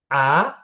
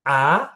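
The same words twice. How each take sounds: First: The pitch rises from middle to high. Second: The same.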